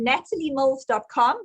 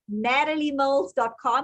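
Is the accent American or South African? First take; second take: South African; American. First: It is spoken in a South African accent. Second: It is spoken in an American accent. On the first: "I'm going to say it in South African accent" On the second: "then I'll try the American"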